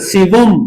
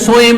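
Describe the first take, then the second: First: It is two syllables with a v, 'siwum'. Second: It is two syllables starting 'so', 'so-em'. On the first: The speaker calls it right. "सिवम, लेर जबर लगा ले" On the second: The speaker calls it wrong. "या सोएम नहीं पढ़ना"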